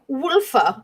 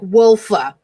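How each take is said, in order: First: The name is said in a fancy, foreign-sounding way. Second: The name is said in a plain, local way. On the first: The drink sounds refined and imported. "I like saying it like that because I feel like I have to" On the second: The drink is just a local product. "it's just from Long Island, though. So it's probably like"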